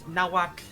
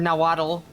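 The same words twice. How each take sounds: First: It is said with a tl affricate. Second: It is said without the tl affricate. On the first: The speaker calls it right. "It is nahuatl. It is an interesting sound. it is an affricate" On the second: The speaker calls it wrong. "which is not correct"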